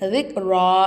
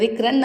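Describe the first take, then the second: First: The word ends with a long 'a' sound. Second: The word ends with an 'an' sound. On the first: The reader stops at the end of the verse. "அந்த தோ ஜபரை ஜபராக மாற்றி நம்ம நிப்பாட்டணும்" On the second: The word is read as written, without stopping. "இங்கே ரிக்ரன் தானே இருக்கு"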